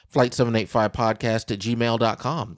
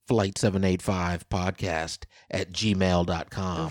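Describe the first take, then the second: First: It is said at a quicker pace. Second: It is said at a slower pace.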